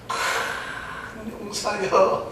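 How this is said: It is said in a mocking, teasing tone.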